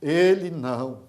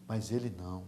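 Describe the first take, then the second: First: "Ele não" drawn out slowly, firmly; emphatic repeat. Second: Low, soft and understated; hushed. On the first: Preacher insisting Daniel was different, "Ele não" slow and emphatic. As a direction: stretch "Ele não" with weight, at full voice. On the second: Preacher quietly setting Daniel apart, hushed. Quiet first take of repeated phrase. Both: Real, not acted.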